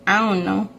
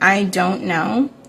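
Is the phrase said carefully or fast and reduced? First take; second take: reduced; careful. First: The words are run together quickly and shortened. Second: Each word is said fully and clearly. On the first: "I find myself saying these very quickly" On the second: "these normally"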